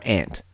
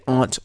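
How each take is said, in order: First: "aunt" with short a as in cat; "aunt" as ANT. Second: "aunt" rhyming with font; "aunt" as AHNT. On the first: Host repeats second option, "aunt" as ant. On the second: Host repeats first option, "aunt" as ahnt. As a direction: say "aunt" with a broad ah. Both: Shown as a demonstration. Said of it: "you can say aunt or aunt".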